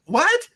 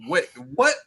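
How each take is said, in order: First: High, rising squeak of mock disbelief; a shocked 'What?' jumping way up. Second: Said in the usual way. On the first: To the driver, mocking his admission: a high incredulous 'What?'. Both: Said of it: "It's just like".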